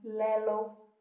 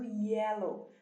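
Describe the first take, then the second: First: The word begins with an L sound. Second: The word begins with a Y sound. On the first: A young child says it this way. "é muito comum as crianças falarem lelo" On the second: This is the intended pronunciation. "Ao invés do yellow"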